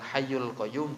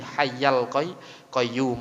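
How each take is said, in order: First: The word hayy ends with a u vowel. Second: The word hayy ends with an a vowel. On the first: The speaker calls it wrong. "Yang benar bukan" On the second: The speaker calls it right.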